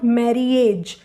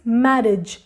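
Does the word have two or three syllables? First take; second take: three; two. First: An extra vowel is sounded in the middle. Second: No extra vowel is sounded in the middle. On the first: The speaker calls it wrong. "This is not marriage" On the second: The speaker calls it right. "this word is marriage"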